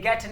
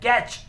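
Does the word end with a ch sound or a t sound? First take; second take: t sound; ch sound. First: The word ends with a plain t sound. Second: The word ends with a ch sound. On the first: "ये गेट नहीं" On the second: "American English में ये गेच होता है"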